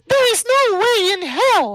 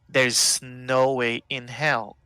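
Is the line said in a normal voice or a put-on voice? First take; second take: put-on; normal. First: It is said in an imitated character voice. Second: It is said in the speaker's ordinary voice.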